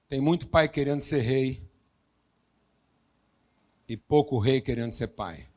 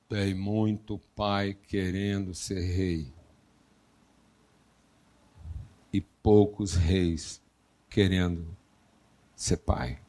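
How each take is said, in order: First: It is said at a normal speed. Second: It is said slowly and deliberately.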